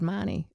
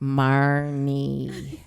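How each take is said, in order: First: The name is said in a plain, neutral way. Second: The name is said in an annoyed, exasperated way.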